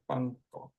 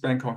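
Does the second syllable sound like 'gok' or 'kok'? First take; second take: gok; kok. First: The second syllable starts with a softer g-like sound. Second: The second syllable starts with a hard k sound. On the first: This is how it is said in Thai. "I think it's got the gok guy in there instead of a k sound" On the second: This is how it is known outside the country. "the way it's known from outside the country, I guess, or the English way"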